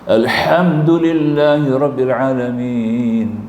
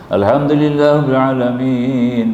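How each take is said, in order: First: The h sound is heavy and from the throat. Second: The h sound is light and soft. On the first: All praise belongs to God. The speaker calls it right. "segala puja-puji bagi Allah" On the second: All death belongs to God. The speaker calls it wrong. "Segala kematian bagi Allah"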